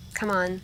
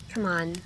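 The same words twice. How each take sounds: The two takes are said the same way.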